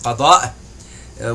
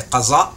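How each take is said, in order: First: The middle consonant sounds like a d. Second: The middle consonant sounds like a z. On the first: This is the original Arabic pronunciation. The speaker calls it right. "It's not qaza, it's qada" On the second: The speaker calls it wrong. "as our Pakistani Indian brothers and sisters say"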